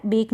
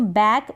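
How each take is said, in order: First: बेक with a long "ay" vowel; mispronunciation demo. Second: बैक with an open "ae" vowel; correct vowel demo. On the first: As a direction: say बेक like English "bake". (बेक में ए की मात्रा) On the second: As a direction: say बैक like English "back". (बैक में ऐ की मात्रा) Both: Shown as a demonstration. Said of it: "बेक नहीं पढ़ेंगे".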